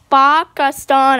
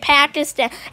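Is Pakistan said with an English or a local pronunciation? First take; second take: local; English. First: It is said with a local, non-English pronunciation. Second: It is said with an English pronunciation. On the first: The speaker calls it right. "It's Pakistan, actually" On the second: The speaker calls it wrong. "Some people say Pakistan. ... Stop using your English"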